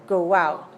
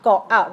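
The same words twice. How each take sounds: First: A w glide links the two words. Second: The two words are separated by a break. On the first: The speaker calls it right. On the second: The speaker calls it wrong.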